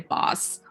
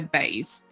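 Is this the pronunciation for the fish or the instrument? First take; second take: fish; instrument. First: It is the pronunciation used for the fish. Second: It is the pronunciation used for the instrument. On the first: It names a kind of fish. "if you use the word for fish, you say bass" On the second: It names a musical instrument. "when you use the same word for instrument, you say bass"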